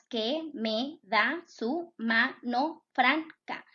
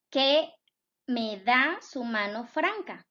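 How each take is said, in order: First: "Que me da su mano franca" said slowly, each syllable set apart; split into syllables. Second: Said in the usual way. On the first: Shown as a demonstration. Teacher separating a verse into syllables for her students, slow syllable-by-syllable reading. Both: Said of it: "Lo separamos en sílabas".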